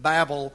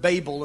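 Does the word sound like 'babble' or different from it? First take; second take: like babble; different. First: The word sounds like 'babble'. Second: The word does not sound like 'babble'. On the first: It ties the name to the word babbling. "I simply call it the Tower of Babel because our word babbling comes from Babel" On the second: Some other people say it this way. "some people pronounce the word Babel"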